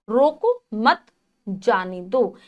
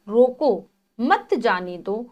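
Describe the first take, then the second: First: रोको मत joined, a break, then जाने दो; pause after मत. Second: Slow रोको, a break, then मत जाने दो; pause after रोको. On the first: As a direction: stop after मत, then let जाने दो drop. (मत के बाद विराम) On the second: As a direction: stop after रोको, keep मत जाने दो together. (रोको के बाद विराम) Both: Shown as a demonstration. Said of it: "अल्प विराम के स्थान बदल देने से".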